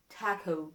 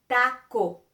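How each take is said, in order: First: "taco" softer with flat a and gliding English o; "taco" with English vowels. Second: "taco" louder with open a and pure short o; "taco" with pure Spanish vowels. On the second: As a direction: model the Spanish way. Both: Shown as a demonstration. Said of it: "listen the difference between".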